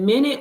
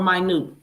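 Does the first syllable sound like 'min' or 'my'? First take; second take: min; my. First: The first syllable sounds like 'min'. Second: The first syllable sounds like 'my'. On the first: A unit of time on the clock. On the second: Very small or lesser.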